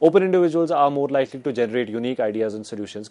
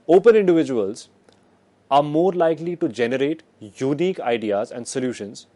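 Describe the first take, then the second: First: It is said without added pauses. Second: It is said with several short pauses. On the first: "That's one way to put it" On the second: "I'll just add pauses"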